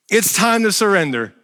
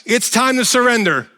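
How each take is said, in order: First: Said in the usual way. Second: Loud, high rebuke of surrender; commanding God. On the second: Pretend. God telling Paul to surrender, loud command. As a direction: order it from above. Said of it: "God is just like".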